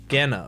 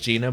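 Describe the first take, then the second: First: The name is said with Japanese vowels. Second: The name is said with English vowels. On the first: "if it was the Japanese pronunciation, it'd be Gena" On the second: "I think is just going to be pronounced Gina"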